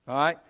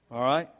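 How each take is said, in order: Both takes have the same delivery.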